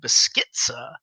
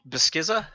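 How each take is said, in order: First: The middle consonant is a ts sound. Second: The middle consonant is a plain z sound.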